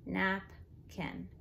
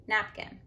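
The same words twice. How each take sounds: First: "Napkin" in two parts, a gap between; split by syllable. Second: Said in the usual way. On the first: Shown as a demonstration. Teacher showing spelling by syllable, split by syllable. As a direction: break "Napkin" into nap, pause, kin. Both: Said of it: "you wanna spell by syllable".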